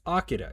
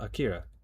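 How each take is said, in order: First: The name is said in a Japanese-style way. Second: The name is said in an English-style way. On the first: The speaker calls it right. "it's Akira" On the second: The speaker calls it wrong. "it's not Akira"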